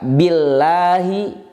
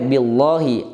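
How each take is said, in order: First: The l sound is light and thin. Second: The l sound is heavy and thick. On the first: The speaker calls it right. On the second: The speaker calls it wrong.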